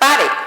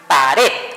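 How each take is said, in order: First: The stress is on the first syllable. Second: The stress is on the last syllable. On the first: The speaker calls it wrong. "no es pared" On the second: The speaker calls it right. "es pared ... Se pronuncia al final a fuerza"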